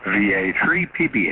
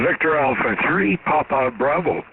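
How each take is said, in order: First: "V A three P B" said as bare letter names, no phonetic words; call sign letters. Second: "Victor Alpha three, Papa Bravo" spelled in full NATO phonetic words; phonetic alphabet call sign. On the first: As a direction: rattle off the letters "V A three P B" quickly. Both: Real, not acted.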